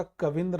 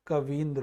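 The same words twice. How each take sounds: First: कविंद्र with a short i after क, कविंद्र; कविंद्र read out as the incorrect short-i version; wrong spelling said. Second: कवींद्र with a long ई after व; कवींद्र said as the right long-ई form; correct pronunciation. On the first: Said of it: "कविंद्र नहीं होता है". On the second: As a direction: stretch the ई in कवींद्र. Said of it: "कवींद्र होता है". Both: Shown as a demonstration.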